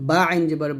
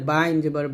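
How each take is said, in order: No difference in how they are said.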